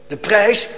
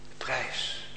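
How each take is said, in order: First: Loud, rising call of the price. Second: Breathy whisper of "de prijs", much softer. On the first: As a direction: proclaim it loudly, tune rising. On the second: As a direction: drop to a hushed whisper. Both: Acted.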